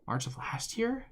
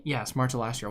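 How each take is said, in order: First: Surprised question. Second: Said in the usual way. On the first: Real, not acted. Double-checking the release date.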